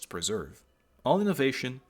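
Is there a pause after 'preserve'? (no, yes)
yes. It breaks with a pause after preserve. Innovation is forbidden in the place. The speaker calls it right.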